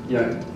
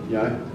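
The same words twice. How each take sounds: The two takes are said the same way.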